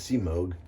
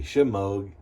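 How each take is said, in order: First: The word begins with a plain s sound. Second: The word begins with an sh sound. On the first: The speaker calls it right. "instead of Seamog" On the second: The speaker calls it wrong. "I put an H on it for some reason and say Shemog"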